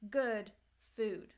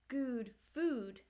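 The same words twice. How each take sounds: First: Each word has its usual vowel sound. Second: The vowels of the two words are swapped. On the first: The speaker calls it right. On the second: The speaker calls it wrong. "It's not"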